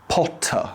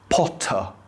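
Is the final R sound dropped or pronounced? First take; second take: dropped; dropped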